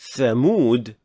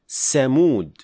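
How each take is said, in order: First: The word begins with a 'th' sound. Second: The word begins with an 's' sound. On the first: The speaker calls it right. "instead of saying thamud" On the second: The speaker calls it wrong. "mispronounce it as seen"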